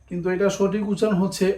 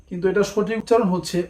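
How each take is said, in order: The two takes are said the same way.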